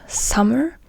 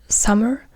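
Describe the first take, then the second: No difference in how they are said.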